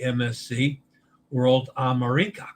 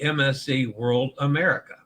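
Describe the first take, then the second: First: The name is said with an Italian pronunciation. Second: The name is said with an American pronunciation. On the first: The speaker calls it right. "the Italian pronunciation" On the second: The speaker calls it wrong. "the bastardized American pronunciation"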